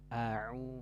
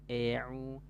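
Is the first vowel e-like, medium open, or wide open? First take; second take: wide open; e-like. First: The first vowel is opened very wide. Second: The first vowel shifts toward an e sound. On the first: "jangan ... melebarkan bukaan mulut" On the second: "jangan miring ... vokalnya menjadi berubah ke E"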